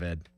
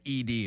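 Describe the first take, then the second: First: The name is spoken as a single syllable. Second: The name is spoken as two separate letters. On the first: The speaker calls it right. "instead of Ed" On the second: The speaker calls it wrong. "I said E D instead of Ed"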